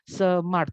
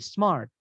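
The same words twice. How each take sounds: First: The word is split into two syllables. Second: The word is said as one syllable. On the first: The speaker calls it wrong. "bukan smart ya" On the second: The speaker calls it right. "itu bacanya cuma sekali"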